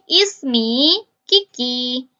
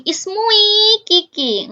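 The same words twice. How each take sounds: First: Slow careful "ismi Kiki" with clear i; teacher carefully gives the right "ismi Kiki"; correct form. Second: High, slow, drawn-out wrong ismui; mock wrong "Ismui Kiki" stretched out slowly; wrong form. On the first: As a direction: say "ismi" as ISS-mee, slowly and deliberately. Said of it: "Nggak, tapi". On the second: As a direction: say "Ismui Kiki" slowly and high, vowels u-i run together as the mistake. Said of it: "kalian nggak mungkin ngomong". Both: Shown as a demonstration.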